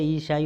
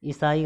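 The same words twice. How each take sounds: First: ईसाई opening on long "ee", with sh. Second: ईसाई opening on short "i"; wrong short i. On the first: Teacher correcting students, long-ee ईसाई. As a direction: hold the first ee of ईसाई. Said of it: "होता है". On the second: Teacher showing the error, short-i ईसाई. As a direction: clip the first vowel of ईसाई. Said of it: "गलत है". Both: Shown as a demonstration.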